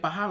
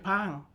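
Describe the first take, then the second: First: The h sound is pronounced in the word. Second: The h sound is dropped from the word. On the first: This is how others say it. "We don't say" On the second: This is how Iban speakers say it. "we say ... because we don't have H"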